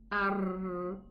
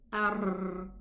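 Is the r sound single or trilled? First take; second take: trilled; trilled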